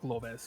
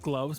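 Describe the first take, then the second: First: It is said with a Spanish accent. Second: It is said with a plain English accent. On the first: "pronounced like in a Spanish way" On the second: "just gloves"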